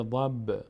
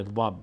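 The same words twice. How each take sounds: First: ضب with an echoing release of the b; brief pop after ضب, not a full vowel; qalqala on ضب. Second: ضب with the final b held shut; no echo after the b of ضب; ضب without qalqala. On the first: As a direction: bounce lightly off the final b of ضب. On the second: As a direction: end ضب on closed lips. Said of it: "اما نمیشه". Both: Shown as a demonstration.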